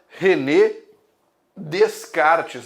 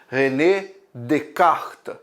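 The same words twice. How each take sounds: First: The S in Descartes is clearly pronounced. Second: The S in Descartes is silent. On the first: The speaker calls it wrong. "que muita gente fala, René Descartes, mas não é Descartes" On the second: The speaker calls it right. "Esse S no francês é mudo... é mais ou menos assim que se fala"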